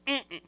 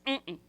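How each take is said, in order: Both takes have the same delivery.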